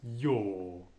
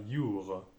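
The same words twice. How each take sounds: First: "your" as a slow, long "yo"; right, no R. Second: "your" as "yur" with a French R; slow "your" ending in a sounded R; wrong, R pronounced. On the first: Teacher showing the right way, slowly. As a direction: drag out "your" with no R. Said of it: "mais bien your". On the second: Teacher showing the wrong way to say your. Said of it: "non pas your". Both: Shown as a demonstration.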